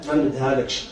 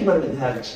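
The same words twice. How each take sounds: First: Low, quiet father's flat refusal; a father turning down the suitor, low and firm; stern refusal. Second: Low, quiet refusal said once more; a father shutting the door on him; stern refusal. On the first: Father refuses the drug-addict suitor, low and stern. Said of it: "قال لي". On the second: Father refuses the suitor a second time, low and quiet. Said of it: "حنا ما سكتيت عليك". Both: Retold or imitated.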